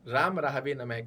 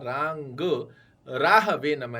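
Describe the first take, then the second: First: The first word ends in a plain m sound. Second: The first word ends in a nasal ng sound. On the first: The speaker calls it wrong. "राम राहवे नमः का उच्चारण आपको नहीं करना है" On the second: The speaker calls it right. "ये रांग जैसे गाय वाला रांग राहवे नमः है"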